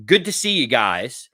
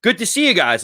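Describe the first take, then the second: First: Slow, casual imitated sign-off; offhand farewell. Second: Imitated pointed second attempt, higher; repeated farewell. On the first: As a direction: toss it out while busy with papers. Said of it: "as he's leaning down to pick up his papers". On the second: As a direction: say it up at them, fishing for a reply. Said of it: "he looks back up after he picks his stuff up".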